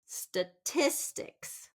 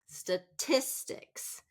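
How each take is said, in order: First: The stress is on the second syllable. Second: The stress is on the second syllable.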